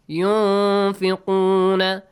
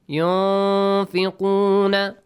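First: The n sound is hidden in nasal resonance. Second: The same.

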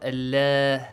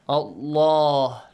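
First: The L is light, with a thin sound. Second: The L is heavy, with a full, deep sound. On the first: The speaker calls it wrong. "not Allah, no" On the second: The speaker calls it right. "the lam in the word Allah must be pronounced heavily"

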